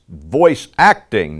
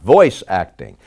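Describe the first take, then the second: First: The stress falls on the word acting. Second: The stress falls on the word voice. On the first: The acting is what matters. The speaker calls it right. "voice acting is about the acting" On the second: The voice is what matters. The speaker calls it wrong.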